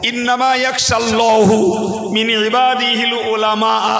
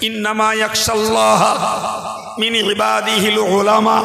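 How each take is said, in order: First: The word Allah ends with a 'u' vowel. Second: The word Allah ends with an 'a' vowel. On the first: God fears the knowledgeable. The speaker calls it wrong. "ওইটা আমি এরকম পড়বো" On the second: Knowledgeable servants fear God the most. The speaker calls it right. "কোরআন শরীফে আল্লাহ বলেছেন"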